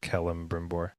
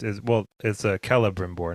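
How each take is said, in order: First: The name is said with an extra M sound. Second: The name is said without an extra M sound. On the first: The speaker calls it wrong. "not Celebrimbor" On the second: The speaker calls it right. "It's Celebrimbor"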